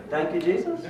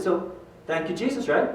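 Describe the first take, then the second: First: Unsure, questioning rise on "Jesus"; imitating a puzzled player, "Jesus" lifting uncertainly; tentative echo. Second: Softly leading, seeking agreement; retold coach's prompt, falling at the end; gentle prompting. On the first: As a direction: repeat "Thank you, Jesus" as a doubtful question. Baffled player echoes the coach. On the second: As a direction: coax him into repeating it.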